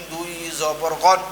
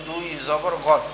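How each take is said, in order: Both takes have the same delivery.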